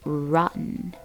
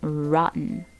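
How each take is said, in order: Both takes have the same delivery.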